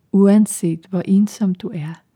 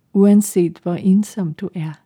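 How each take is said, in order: No difference in how they are said.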